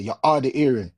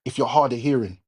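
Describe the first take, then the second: First: Jamaican accent, "hard" and "hearing" said as 'ard and 'earing; Jamaican saying. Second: Said in the usual way. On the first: Shown as a demonstration. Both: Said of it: "as we say in Jamaica".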